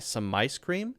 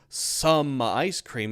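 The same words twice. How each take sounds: First: 'Some' is unstressed and linked to 'ice'. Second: 'Some' is full, stressed and separate. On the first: The speaker calls it right. "it's almost unstressed there" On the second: The speaker calls it wrong. "there's no some"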